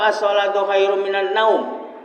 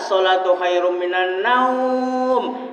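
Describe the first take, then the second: First: The last word's vowel is kept short. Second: The last word's vowel is drawn out long. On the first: It does not apply the Quran recitation rules. "dipendek ke" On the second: It follows the lengthening rules of Quran recitation. "dipanjang ke"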